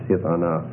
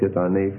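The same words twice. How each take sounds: First: The final syllable has an a vowel. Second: The final syllable has an e vowel. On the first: The speaker calls it right. "it's hith anaf" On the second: The speaker calls it wrong. "it's not instead of hith anaf"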